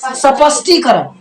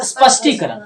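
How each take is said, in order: First: The first s is said with a full vowel. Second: The first s is said without any vowel. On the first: The speaker calls it wrong. "बहुत सारा विद्यार्थी इसको स्पष्टीकरण बोलता है। क्या बोलता है?" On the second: The speaker calls it right. "लेकिन ये क्या है? ... आधा स है"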